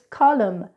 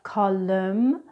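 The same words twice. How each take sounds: First: The final N sound is silent. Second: The final N sound is pronounced. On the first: The speaker calls it right. "it's column" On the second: The speaker calls it wrong. "It's not column"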